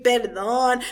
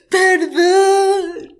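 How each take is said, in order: First: Said in the usual way. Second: Long, loud, high plea; hammed-up bellow begging for pardon; mock scream. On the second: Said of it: "he screams that shit".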